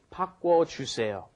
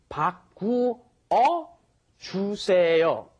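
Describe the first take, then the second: First: The verb is contracted into two syllables. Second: The verb is said in full, three syllables. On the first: "which, when spoken, is" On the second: "It has to be combined into"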